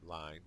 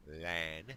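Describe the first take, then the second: First: Said in the usual way. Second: A mock French accent on "Lan", nasal vowel, final n barely touched; hammed-up French accent saying "Lan" for line; bad French accent. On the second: Shown as a demonstration. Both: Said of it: "bad French accent".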